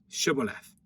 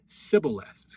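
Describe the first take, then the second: First: The word begins with an sh sound. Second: The word begins with an s sound. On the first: The speaker calls it right. "say now Shibboleth" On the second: The speaker calls it wrong. "he can't get the sh sound. It's an S to him"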